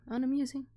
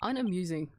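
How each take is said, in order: First: Unamusing lifted higher and lighter. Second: Unamusing said low and falling. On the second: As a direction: drop Unamusing low and flat. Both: Shown as a demonstration. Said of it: "repeated word differently".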